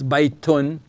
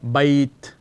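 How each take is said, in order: First: The word ends with the full -un ending. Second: The word ends without any final vowel. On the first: The speaker calls it wrong. "We don't say baitun" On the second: The speaker calls it right. "we just say bait"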